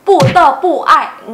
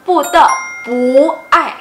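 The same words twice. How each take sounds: First: Slow "pu te pu ai", each word falling separately; all fourth tone, wrongly. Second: "pu te", then "pu" rising into falling "ai"; second "pu" turns rising. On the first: Teacher showing how real talk does not sound, over-snapped falls. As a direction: hammer "pu" and "ai" as separate sharp falls. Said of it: "dalam kehidupan interaksi sebenarnya dibacanya nggak". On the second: Teacher showing real-life reading, second "pu" in rising tone. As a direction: lift the second "pu" upward, drop "ai" sharply. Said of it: "Kenapa jadi nada dua?". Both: Shown as a demonstration.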